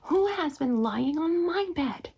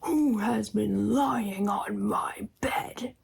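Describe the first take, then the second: First: It is said in a middle-sized voice. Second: It is said in a great big voice. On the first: "cried out in a middle-sized voice" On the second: "he cried out in his great big voice"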